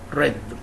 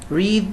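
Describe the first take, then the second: First: It uses the past-tense pronunciation of read. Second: It uses the present-tense pronunciation of read. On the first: The action already happened. "in the past and past participle pronounced read" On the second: The action happens now. "in the present"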